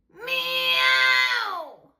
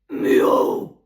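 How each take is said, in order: First: The meow has a distorted, buzzing edge. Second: The meow is a deep guttural grunt. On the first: "Särökissa" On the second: "Örinäkissa"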